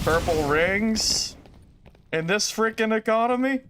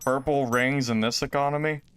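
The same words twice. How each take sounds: First: Slow, high, drawn-out outraged question; mock outrage. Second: Said in the usual way. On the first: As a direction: ham up the disbelief. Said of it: "meme line, hammed second take". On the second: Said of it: "meme line, first take".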